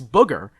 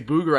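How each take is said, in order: First: The vowel sounds like the one in book. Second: The vowel sounds like the one in boot. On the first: The speaker calls it right. "it's the O O like in look and book" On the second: The speaker calls it wrong. "I've never heard anyone say"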